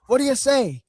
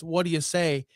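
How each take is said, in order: First: Loud, high mock promo shout; mock Piper mic call. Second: Said in the usual way. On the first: Host mocks Piper cutting in again, loud and high. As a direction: bark it like a pushy announcer.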